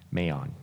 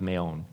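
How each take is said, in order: First: Maon ending like "on"; Maon with open AH. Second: Maon ending like "own"; Maon with long O. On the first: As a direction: say Maon as "may-AHN", with an open vowel. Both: Shown as a demonstration. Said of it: "Let's go Maon".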